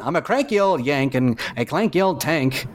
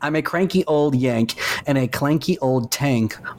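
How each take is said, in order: First: It is spoken in an old-fashioned transatlantic accent. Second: It is read in the speaker's ordinary accent.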